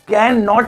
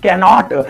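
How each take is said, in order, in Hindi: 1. "can" और "not" अलग-अलग शब्दों की तरह बोले जाते हैं। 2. "can" और "not" जल्दी से मिलकर एक हो जाते हैं। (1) "कैन नॉट नहीं" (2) "स्पीड में कैनॉट"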